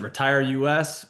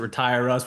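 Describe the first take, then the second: First: The ending is said as two separate letters. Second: The ending is said as one short word. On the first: "We pronounce it both ways" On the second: "We pronounce it both ways"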